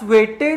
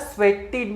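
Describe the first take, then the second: First: The last syllable is said like 'ed'. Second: The last syllable is said like 'id'. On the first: The speaker calls it wrong. "याला स्वेटेड नाही म्हणलेलं आहे आपण" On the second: The speaker calls it right. "ह्याला स्वेटिड म्हणले"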